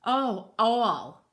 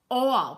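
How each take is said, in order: First: Said in the usual way. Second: All said like awl; all spoken as the tool name awl; corrected pronunciation. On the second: Shown as a demonstration. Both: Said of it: "pronounced all".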